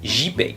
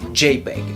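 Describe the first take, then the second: First: The J is pronounced the French way. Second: The J is pronounced the English way. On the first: "ça se prononce" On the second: "En anglais, la lettre J se dit J"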